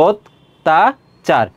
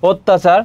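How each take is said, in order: First: অত্যাচার said as ওত্তাচার, with ও at the start and a doubled ত, drawn out very slowly; slow pronunciation demo. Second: Said in the usual way. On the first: Shown as a demonstration. Teacher drawing out অত্যাচার for students in three slow steps. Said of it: "তিনটা ধাপে।". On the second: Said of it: "অ এর উচ্চারণটা কি হয়ে যাবে?".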